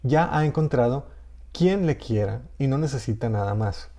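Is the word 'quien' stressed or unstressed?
stressed. The word 'quien' carries stress. "el acento prosódico puede estar"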